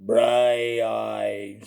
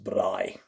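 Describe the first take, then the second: First: "Braai" stretched with a trailing extra vowel; overdone, drawn-out "Braai"; wrong braai. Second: Low, tapped-R "braai"; "braai" as one syllable, Afrikaans style; correct braai. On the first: Showing the wrong word, "Braai" drawn out as bry-eye. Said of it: "you wanna go". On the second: Teaching the word, Afrikaans "braai" in one syllable. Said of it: "It's pronounced". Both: Shown as a demonstration.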